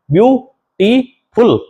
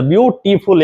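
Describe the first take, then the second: First: ब्यूटीफुल spoken slowly and higher, each syllable split apart. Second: Said in the usual way. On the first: Shown as a demonstration. Teacher splitting ब्यूटीफुल into syllables for students. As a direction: stretch ब्यूटीफुल out into its three syllables. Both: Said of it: "तीन syllable है इसके अंदर".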